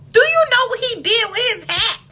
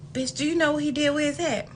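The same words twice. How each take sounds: First: Much higher, louder, laughing question; laughing repeat. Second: Said in the usual way. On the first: Real, not acted. Asking viewers about the date's hat, laughing loudly. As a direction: repeat it cracking up.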